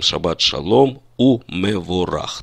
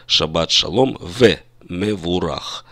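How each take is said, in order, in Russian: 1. Союз перед 'mevorach' произносится как 'u'. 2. Союз перед 'mevorach' произносится как 've'. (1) "по нормам высокого стиля, классического иврита" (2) "в обычной речи мы бы сказали"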